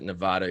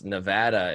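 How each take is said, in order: First: The middle vowel sounds like the vowel in 'odd'. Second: The middle vowel sounds like the vowel in 'add'. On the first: The speaker calls it wrong. "If you ever pronounce it Nevada, you'll get yelled at" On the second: The speaker calls it right. "It's Nevada"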